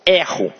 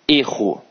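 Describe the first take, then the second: First: The first vowel is an open e. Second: The first vowel is a closed e. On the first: It is the verb: I make a mistake. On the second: It is the noun: a mistake.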